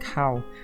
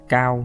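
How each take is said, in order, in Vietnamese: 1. Tên "Cao" được phát âm theo giọng Anh. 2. Tên "Cao" được phát âm theo giọng Việt.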